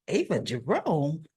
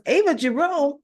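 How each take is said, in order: First: Stunned question. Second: Shocked repeat. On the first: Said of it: "So Alexis is like". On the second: Alexis hearing her accuser named, shocked disbelief. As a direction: echo "Ava Jerome?" in disbelief, pitched up. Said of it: "And she goes". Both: Retold or imitated.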